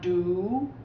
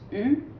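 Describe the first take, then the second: First: The vowel is a back 'oo' sound. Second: The vowel is a front rounded 'u' sound. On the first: The speaker calls it wrong. "it's not do" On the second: The speaker calls it right. "it's u, ... about to blow a bubble"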